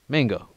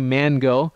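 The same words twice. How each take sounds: First: The N merges into the following G sound. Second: The N is said separately before the G. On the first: The speaker calls it right. "we assimilate the N and the G, and it becomes mango" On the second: The speaker calls it wrong. "We don't say mango"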